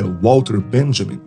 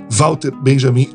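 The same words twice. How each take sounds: First: The name is said with a foreign pronunciation. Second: The name is said with a Brazilian pronunciation. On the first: This is how the name is said in its original form. "mas não é assim que fala, né? O nome do cara é" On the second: The name is treated as a Brazilian name. "que nome brasileiro lindo seria"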